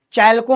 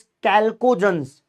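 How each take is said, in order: First: चैल्को said with a "ch" sound at the start; wrong pronunciation. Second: कैल्कोजेंस said with a hard "k" at the start; कैल्कोजेंस with "k" as in kite, drawn out; correct pronunciation. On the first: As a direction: misread चैल्को with "ch" as in chair. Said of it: "चैल्को मत पढ़ना". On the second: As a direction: slowly sound out कैल्कोजेंस, opening on "kal". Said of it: "चैल्को नहीं है, that is". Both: Shown as a demonstration.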